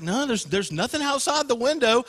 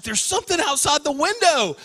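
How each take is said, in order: First: Lightly voiced reassuring father; dismissive dad. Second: Raised pitch, mock alarm; upset sister. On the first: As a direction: mildly play a dad dismissing a child's fear. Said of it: "And Dad's like". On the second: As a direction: act out a scared kid reporting something. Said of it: "And she's all upset".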